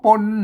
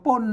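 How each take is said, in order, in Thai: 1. คำนี้มีเสียงต่ำ 2. คำนี้มีเสียงตกพิเศษ (1) "ออกป่นเสียงเอก" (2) "เสียงโทพิเศษโทเมืองนะครับ"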